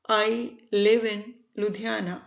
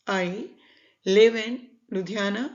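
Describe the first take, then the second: No difference in how they are said.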